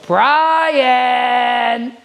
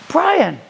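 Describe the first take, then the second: First: The name is said in a stern, scolding tone. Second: The name is said in a warm, friendly tone. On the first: "oh man, I knew I was in trouble" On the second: "different feeling"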